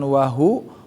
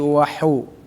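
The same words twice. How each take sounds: First: The h is a plain, light breathy sound. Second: The h is a raspy sound from the throat. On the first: The speaker calls it wrong. "bukan wahu" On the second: The speaker calls it right. "tapi wahu"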